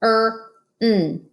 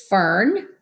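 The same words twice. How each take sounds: First: F, er, n drawn apart; sounded out. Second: Said in the usual way. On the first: Shown as a demonstration. Teacher segmenting F-er-n for class. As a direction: sound out fern as F-er-n. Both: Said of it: "Let's read this next word".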